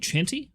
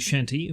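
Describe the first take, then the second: First: The word begins with a hard 'ch' sound. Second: The word begins with a soft 'sh' sound. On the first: "but it's spelled with a C" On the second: "I'd pronounce it Shanty"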